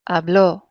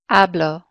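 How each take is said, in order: First: The stress is on the last syllable. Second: The stress is on the first syllable.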